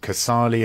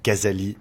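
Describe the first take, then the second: First: The surname is said with an English pronunciation. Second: The surname is said with a French pronunciation. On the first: "in English" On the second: "in French"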